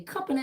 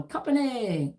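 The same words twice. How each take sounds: First: Drill sergeant call. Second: A lightly voiced drill call, pitch up then falling; military command call. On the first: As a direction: sing out "Company" like a drill sergeant. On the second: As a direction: call "Company" like a sergeant before formation. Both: Shown as a demonstration. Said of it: "when I just did that".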